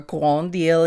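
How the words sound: The name is pronounced with French sounds.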